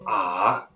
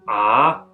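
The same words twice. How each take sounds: First: It is said with the third tone. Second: It is said with the second tone.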